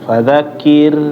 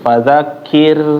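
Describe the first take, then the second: The two takes are said the same way.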